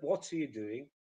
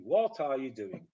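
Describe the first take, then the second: First: "What are you doing" run together as "what's-uh you doing"; linked, reduced "What are you doing"; natural weak form. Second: "What are you doing" with ARE pronounced in full; each word of "What are you doing" separately sounded; uncontracted, stilted "What are you doing"; learner's over-full form. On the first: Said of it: "instead of". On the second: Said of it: "because English people don't do it". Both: Shown as a demonstration.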